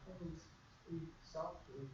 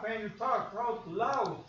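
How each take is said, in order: First: Much softer, slow and lower; speaking softly. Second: Louder and slower; talking out loud. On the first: Teacher showing soft speech on the radio, very softly and slowly. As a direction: drop almost to a hush to show soft speech. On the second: Teacher showing a loud voice on the radio, louder and slower. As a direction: say it out loud and slow to show a loud voice. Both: Shown as a demonstration.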